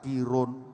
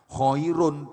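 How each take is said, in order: First: It is said as the simplified form kirun. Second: It is said with the Arabic kh and ai sounds.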